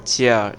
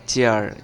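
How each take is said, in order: Both takes have the same delivery.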